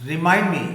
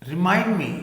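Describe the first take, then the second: The two takes are said the same way.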